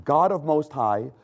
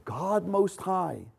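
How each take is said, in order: First: Said in the usual way. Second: "God Most High" drawn out slowly, softer, each word weighed; slow hushed stress on "God Most High"; slow emphatic phrase. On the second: Shown as a demonstration. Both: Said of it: "So this is a new revelation".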